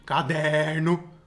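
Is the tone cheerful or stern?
stern. It is said in a stern, harsh tone.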